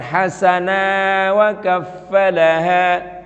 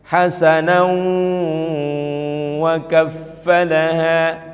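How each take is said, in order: First: No n sound comes before the following word. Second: An n sound links into the following word. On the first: The speaker calls it wrong. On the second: The speaker calls it right. "Menyambungkannya gimana?"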